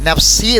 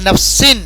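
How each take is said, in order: First: The word ends without any n sound. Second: The word ends with a clearly pronounced n sound. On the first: The speaker calls it right. "നഫ്സി എന്ന് പറഞ്ഞാൽ മതി" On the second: The speaker calls it wrong. "നഫ്സിൻ എന്ന് പറയാൻ പാടില്ല"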